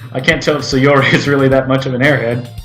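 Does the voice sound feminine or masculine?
masculine. It is said in a masculine voice. The speaker calls it right. "Let me get back to my masculine voice"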